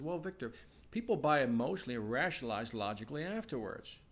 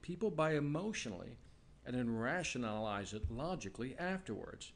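First: It is said at a normal pace. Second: It is said slowly.

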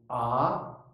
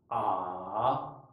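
First: The pitch rises sharply. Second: The pitch stays low and subdued. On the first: "第二声は急激にぐっと上がるですね。" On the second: "第三声は起伏を抑える。"

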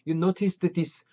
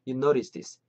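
First: Each word is pronounced fully and separately. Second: The words are linked into one smooth unit. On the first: The speaker calls it wrong. "언제 이렇게 다 발음하고 있겠어요?" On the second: The speaker calls it right. "그냥 탁 이어버려갖고 you noticed this 이렇게 음 연결해 주셨으면 좋겠습니다"

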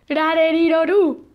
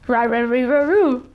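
First: The syllables have a Spanish pronunciation. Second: The syllables have an English pronunciation. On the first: "I mean" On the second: "And in English would be"

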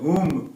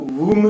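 First: The word begins with an h sound. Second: The word begins with a w sound. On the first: The speaker calls it right. "હુ બોલાય" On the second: The speaker calls it wrong. "આમાં હુમ ના બોલાય, વ બોલાશે નહીં"

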